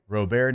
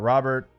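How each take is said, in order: First: The name is said in the Louisiana way. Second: The name is said in the standard way. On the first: The speaker calls it right. "The way we say things" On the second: The speaker calls it wrong.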